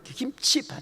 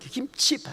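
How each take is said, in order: First: The word has two syllables, gim-chi. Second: The same.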